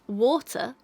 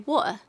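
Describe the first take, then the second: First: The middle t sound is clearly pronounced. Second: The middle t sound is left out. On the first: "instead of pronouncing water" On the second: "You miss that whole whole consonant out there"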